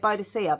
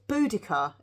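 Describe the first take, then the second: First: The name is said as Boadicea. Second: The name is said as Boudica. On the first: This is how the speaker has always said it. The speaker calls it wrong. "I've always said Boadicea" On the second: This is reportedly the proper form. The speaker calls it right. "apparently it's not. It's Boudica"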